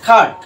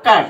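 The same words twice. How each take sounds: First: খাট said with a breathy aspirated kh at the start; খাট: hit the k with a strong puff of air, British style. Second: কাট said plainly as "kat" with unaspirated k; CBC rule reading. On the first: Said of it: "ওদের কে হয়ে যায়? খাট।". (খাট, British উচ্চারণে ক-এ জোরালো হাওয়া) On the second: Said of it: "এর বানানটা কি হবে? কাট।". (কাট সাধারণ বাংলা ক দিয়ে) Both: Shown as a demonstration.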